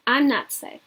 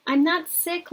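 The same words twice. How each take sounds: First: Said in the usual way. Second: "not" lifted high and pushed; stress on NOT. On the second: A narrator's reading. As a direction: lean hard on "not" in "I'm not sick". Mother repeats denial, laughing.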